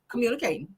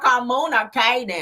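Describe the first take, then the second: First: The syllables run together at a normal pace. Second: Each syllable is sounded out slowly and separately. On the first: The speaker calls it right. "that's how you say it" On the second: The speaker calls it wrong. "you got to sound out every single syllable"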